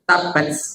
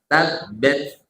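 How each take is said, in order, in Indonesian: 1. Napas terakhir dikeluarkan dengan berat dan keras. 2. Napas terakhir dikeluarkan dengan ringan dan lembut. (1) "jangan sampai uh, terlalu besar sampai belakang, misalnya tabats, gitu jangan" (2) "Tapi sedikit saja, cukup kita dan depan kita yang dengar"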